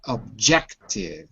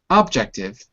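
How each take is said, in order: First: The stress is on the second syllable. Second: The stress is on the first syllable. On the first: The speaker calls it right. "Notice the stress is on the second syllable" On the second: The speaker calls it wrong. "Not objective"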